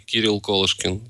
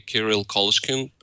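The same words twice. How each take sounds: First: The name is pronounced with Russian sounds. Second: The name is pronounced with English sounds. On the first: "in Russian, it would be" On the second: "in English, I usually say"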